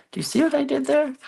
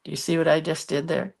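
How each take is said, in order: First: Squeaky teasing voice, much higher; high silly voice. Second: Said in the usual way. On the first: Pretend. Crafter teasing viewers in a high voice. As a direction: pop it up high and fast like a cartoon.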